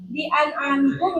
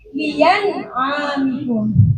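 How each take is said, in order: First: A glottal stop is heard before the 'a'. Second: A clear y sound is heard before the 'a'. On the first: "yang asalnya" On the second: "menjadi ya"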